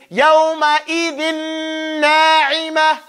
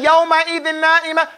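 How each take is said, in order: First: It is said slowly, each sound distinct. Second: It is said quickly, rushing past the n sound. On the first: The speaker calls it right. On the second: The speaker calls it wrong. "Don't rush, don't run. Don't get to the noon and jump off it"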